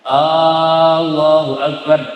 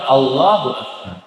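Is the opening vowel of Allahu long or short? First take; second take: long; short. First: The opening vowel of Allahu is drawn out long. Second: The opening vowel of Allahu is kept short. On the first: The speaker calls it wrong. "lafaz hamzah al jalalah tidak boleh" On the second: The speaker calls it right. "Harus apa?"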